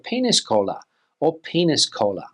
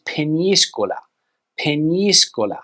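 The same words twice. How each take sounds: First: Penis cola as two English words; mispronunciation. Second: Peñíscola as "pen-YEE-sko-la"; Spanish pronunciation. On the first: Teacher guessing the learner's mistake, English penis cola. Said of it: "Most likely you would say". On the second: Teacher correcting the English version, ny in Peñíscola. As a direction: stress the "ñí" in Peñíscola, with ny. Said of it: "the Spanish pronunciation is". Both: Shown as a demonstration.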